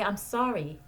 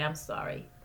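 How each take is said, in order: First: Said in the usual way. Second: Softer and whispered "I'm sorry"; whispered apology. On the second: Shown as a demonstration. Therapist modeling a parent's apology to a child, whispered. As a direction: breathe "I'm sorry" like a hushed, sincere apology.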